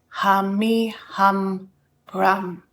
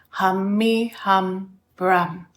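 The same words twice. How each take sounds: The two takes are said the same way.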